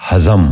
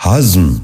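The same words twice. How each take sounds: First: ہضم said as two syllables, "ha-zam"; mispronounced. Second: ہضم said as one syllable, "hazm"; correct pronunciation. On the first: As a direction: put an extra a between z and m in ہضم. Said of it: "یہ غلط تلفظ ہے". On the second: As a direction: run z straight into m in ہضم. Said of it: "درست تلفظ ہے". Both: Shown as a demonstration.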